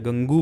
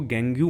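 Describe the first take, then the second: First: The word ends with an added 'oo' sound. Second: The word ends with an added 'yoo' sound. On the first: "या गंगू मत बोलना" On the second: "इसको गैंग्यू मत बोलना"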